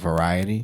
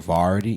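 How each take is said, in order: First: The word is said with all its syllables. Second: The word is said in a shortened, clipped form. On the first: The speaker calls it right. "instead of variety" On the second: The speaker calls it wrong. "I used to say variety"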